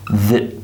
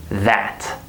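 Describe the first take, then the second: First: "that" short, with weak uh vowel; reduced THAT. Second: "that" slow, stressed, with full vowel; drawn-out careful "that". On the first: Teacher shows the reduced word, weak "that". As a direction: clip "that" down to "thut". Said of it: "it becomes reduced to that". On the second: Teacher shows what we don't say, full stressed "that". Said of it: "We don't say that". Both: Shown as a demonstration.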